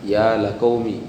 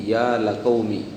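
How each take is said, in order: Both takes have the same delivery.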